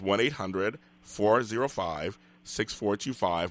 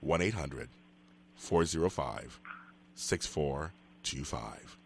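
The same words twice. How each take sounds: First: The number is said at a faster pace. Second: The number is said at a slower pace.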